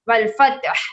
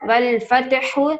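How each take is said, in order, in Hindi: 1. शब्द व्यंजन पर खत्म होता है, कोई स्वर नहीं। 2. शब्द छोटी 'u' स्वर ध्वनि पर खत्म होता है। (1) "हा साइलेंट हो जाएगा" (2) "हा पेश हु"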